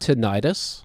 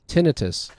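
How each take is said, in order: First: The ending is said like the suffix 'itis'. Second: The ending is not said like 'itis'. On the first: The speaker calls it wrong. "It's not tinnitus" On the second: The speaker calls it right. "That's how you pronounce that"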